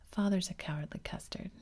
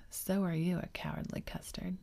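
First: Said in the usual way. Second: Put-on "So are you" stressed as a childish comeback; retort stress. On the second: A narrator's reading. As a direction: throw the taunt back, leaning on "So are you". Father throws taunt back at child.

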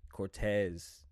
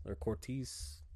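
First: Cortez said kor-TEZ with a short open e; corrected name. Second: Cortez said as kor-TEEZ, wrong vowel; mispronounced name. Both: Shown as a demonstration. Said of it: "my bad".

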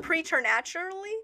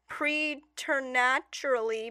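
First: Preternaturally in one go, questioning; questioning repeat. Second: Preternaturally sounded out slowly in pieces; halting reading. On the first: Co-host checking the odd word, questioning preternaturally. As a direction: say "preternaturally" whole, as a doubtful question. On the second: Co-host struggling to read, slow, careful preternaturally. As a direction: labour through "preternaturally" bit by bit. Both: Real, not acted.

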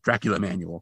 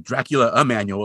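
First: Said in the usual way. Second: "Dracula a manual" with the "a" set apart before "manual"; separate article "a". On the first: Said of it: "It's just Dracula Manual". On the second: Shown as a demonstration. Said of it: "it's not like Dracula a manual".

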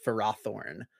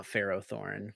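First: Ferrothorn with an unstressed first syllable, fuh-RAH-thorn; correct pronunciation. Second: Ferrothorn as FAIR-oh-thorn; rejected pronunciation. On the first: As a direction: say Ferrothorn as "fur-AH-thorn", stressing the second syllable. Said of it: "It's pronounced Ferrothorn". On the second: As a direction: say Ferrothorn with a clear "oh" in the middle. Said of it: "not Ferrothorn". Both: Shown as a demonstration.

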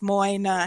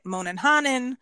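First: Put-on Moynihan said as MOY-ni-han, oi like boy; correct pronunciation. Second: Moynihannon with an extra -non tacked on the end; imitated mispronunciation. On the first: Shown as a demonstration. Guest teaching hosts her surname, clear correct Moynihan. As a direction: Moynihan with the oi sound of boy, stress on the first syllable. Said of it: "O I and O Y is oi". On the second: Guest mimics how people mangle her name, mock Moynihannon. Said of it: "And I get".

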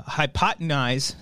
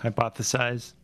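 First: "hypotenize" said as hy-po-te-nize, made-up word; wrong word. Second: "Hypothesize" said clearly as hy-POTH-e-size, the right word; correction. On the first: Real, not acted. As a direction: say "hypotenize" slowly, as if sure it is right. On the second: Shown as a demonstration. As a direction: correct him with "Hypothesize", said plainly.

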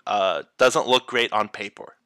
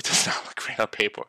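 First: Said in the usual way. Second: Fast laughing whisper aside. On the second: Real, not acted. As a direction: whisper it with a chuckle.

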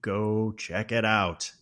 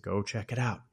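First: Drawn out, slow playful taunt; slow mocking repeat to his wife. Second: Softer taunting suggestion; quiet teasing to a trapped wife; sly taunt. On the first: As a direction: stretch each word out to mock her. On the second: Retold or imitated. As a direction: toy with her gently. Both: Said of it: "just playing with her".

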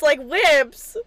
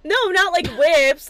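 First: WHIPS hit loud; "whips" stressed and falling. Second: NOT punched loud; "not" hit loud and high; stress on NOT. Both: Shown as a demonstration.

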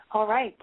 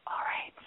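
First: Said in the usual way. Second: Breathy whispered aside; whispering. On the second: Acted. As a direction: drop to a whisper.

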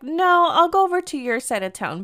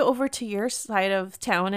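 First: Higher-pitched, insistent retort; quick to refuse, pitched up and insistent; firm counter-offer. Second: Said in the usual way. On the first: Retold or imitated. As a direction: jump in high to overrule the offer. Her firm refusal of his offer.

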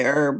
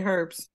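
First: "herb" without its H, as "erb"; silent H in herb. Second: "herbs" with a clear H; sounded H in herbs. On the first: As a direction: drop the H from "herb". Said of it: "but some people say herbs". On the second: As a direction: breathe an H onto "herbs". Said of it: "I say herb, but some people say herbs". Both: Shown as a demonstration.

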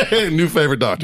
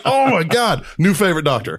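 First: Repeated through laughter; laughing. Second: High, loud delighted exclaim. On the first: Real, not acted. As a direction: say it again while laughing. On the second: Retold or imitated. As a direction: gush with amused delight. Delighted reply in the story.

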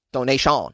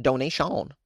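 First: Donation said the French way, nasal toh-nay-see-ah with a dropped end; a jokey French Donation; French accent. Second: Said in the usual way. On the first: Shown as a demonstration. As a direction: Donation as if it were a French word. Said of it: "Yes, that's French for donation". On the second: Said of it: "that's French for donation".

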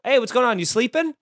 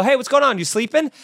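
First: Breezy, falsely innocent phone greeting; fake-innocent wake-up check. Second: Louder, higher breezy phone greeting; fake-innocent wake-up check. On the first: Calling a busy friend, faux-innocent greeting. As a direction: sound like you assume they dozed off. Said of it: "just saying, "Are you sleeping?" makes him so mad". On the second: Teaching listeners the prank call, faux-innocent greeting. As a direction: ask it like they must have dozed off. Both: Shown as a demonstration.

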